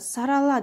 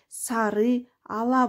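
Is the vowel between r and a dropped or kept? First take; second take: dropped; kept. First: The ы vowel is dropped, words merge. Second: The ы vowel is kept, words separate. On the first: This is how it is naturally spoken. "айтылышында сарала деп айтсак" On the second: This is how it is written. "жаза келгенде сары ала болуп ы кошо жазылат"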